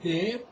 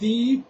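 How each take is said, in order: First: The vowel is a short 'e' sound. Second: The vowel is a long 'ee' sound. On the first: The speaker calls it wrong. "they pronounce it dep, like the actor of Hollywood, Johnny Depp" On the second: The speaker calls it right. "deep is not dep"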